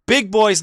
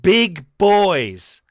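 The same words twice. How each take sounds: First: Sarcastic echo. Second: Put-on sneering air quotes on big boys; mock the phrase big boys; quote-unquote big boys. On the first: Real, not acted. Host sneering at the columnist's phrase. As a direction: throw the words back mockingly. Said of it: "that's just brilliant". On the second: Shown as a demonstration. Host mocking a columnist's phrase, sneering. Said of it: "quote-unquote".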